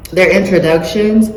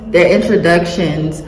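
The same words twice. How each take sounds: The two takes are said the same way.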